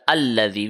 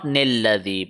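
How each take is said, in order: First: The word begins with a plain vowel sound. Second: The word begins with a linking 'n' sound. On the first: The reading starts fresh at the new verse. The speaker calls it right. "we are going to start from Alladhi" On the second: The reading continues straight on from the previous verse. The speaker calls it wrong. "not Nilladhi"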